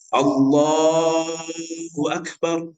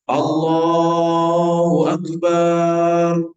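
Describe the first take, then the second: First: The vowels are held at normal length. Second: The vowels are stretched out far too long. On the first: The speaker calls it right. "dia harus benar secara pelafalan" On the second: The speaker calls it wrong. "banyak panjangan, tidak sah itu"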